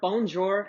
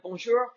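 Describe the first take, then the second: First: The word is pronounced with anglicized sounds. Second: The word is pronounced with French sounds. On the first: The speaker calls it wrong. "botch the pronunciation" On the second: The speaker calls it right. "instead of bonjour"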